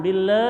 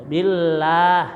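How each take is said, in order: First: "bille" with an e vowel, wrong. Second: "Billah" with a clear open a; correct billah. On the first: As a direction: end on e: "bille". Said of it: "jangan bille". ("bille" salah, bunyi e) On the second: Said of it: "tapi billah". ("Billah" dengan a jelas) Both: Shown as a demonstration.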